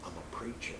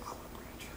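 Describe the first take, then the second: First: Hushed, voiceless whisper. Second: Barely audible whisper; low whisper. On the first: Retold or imitated. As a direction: whisper it secretly into an ear. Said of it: "I whispered in the ear". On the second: Shown as a demonstration. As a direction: breathe it out under your breath, unheard by others. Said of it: "but not that low, I did it".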